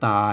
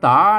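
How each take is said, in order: First: The word is said with a level tone. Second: The word is said with a rising tone. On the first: The speaker calls it wrong. "ภาษาไทยไปอ่านว่าตามันจะเข้าใจผิด" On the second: The speaker calls it right. "อ่านว่าตานะอักษรสูง ... ต้องอ่านเป็นเสียงจัตวา"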